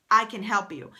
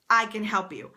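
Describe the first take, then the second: No difference in how they are said.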